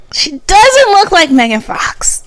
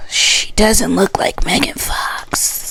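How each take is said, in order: First: Higher, slower, firm declaration; emphatic. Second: Soft, slow unvoiced whisper. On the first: Correcting Chelsea's claim to viewers, high and emphatic. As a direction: state it flat out for everyone. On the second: Telling viewers the truth about Chelsea, whispered. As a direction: breathe it out like a secret. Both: Real, not acted. Whispered then repeated loud.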